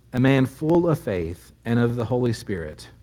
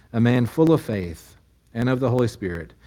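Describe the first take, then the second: No difference in how they are said.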